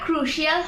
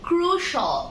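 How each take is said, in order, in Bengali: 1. শেষের অংশটি 'shee-al' এর মতো করে বলা হয়। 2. শেষের অংশটি 'shal' এর মতো করে বলা হয়। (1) "এটা ক্রুশিয়াল হবে না" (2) "এটা হবে"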